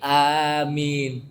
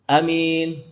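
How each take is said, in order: First: The first vowel a is long. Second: The first vowel a is short. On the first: The speaker calls it right. "Tapi amin. A-nya panjang" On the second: The speaker calls it wrong. "Tidak amin"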